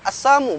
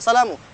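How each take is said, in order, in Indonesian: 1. Salam itu diucapkan tanpa bunyi 'l'. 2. Salam itu diucapkan dengan bunyi 'l'. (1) "Assamu bukan assalamu" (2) "bukan assalamu"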